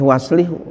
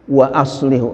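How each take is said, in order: First: The hamza is dropped and the words run together. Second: A glottal stop separates the words at the hamza. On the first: The speaker calls it wrong. "enggak boleh" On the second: The speaker calls it right. "harus ya wa aslihu"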